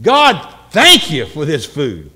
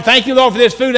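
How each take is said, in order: First: Slow, weighty, earnest grace; mean each word of thanks; serious prayer. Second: Perfunctory, higher-pitched rattled-off prayer; unserious grace. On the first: Person praying seriously over food, serious prayer. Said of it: "we need to be more serious". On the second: Family dropping down to pray before eating, unserious grace. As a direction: dash off grace without meaning it. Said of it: "there's no seriousness there". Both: Acted.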